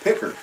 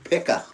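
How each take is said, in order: First: The final R sound is strong and clear. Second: The final R sound is weak or dropped. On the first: "with a strong R" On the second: "Everybody else, it, it's picker"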